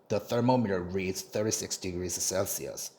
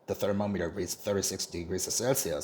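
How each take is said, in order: First: The sentence is read at a slower pace. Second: The sentence is read at a faster pace.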